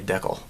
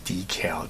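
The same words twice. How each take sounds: First: The word has the Canadian pronunciation. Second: The word has the American pronunciation. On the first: "in Canada, they say decal" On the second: "as an American, the pronunciation is decal"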